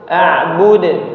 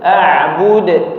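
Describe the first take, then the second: Both takes have the same delivery.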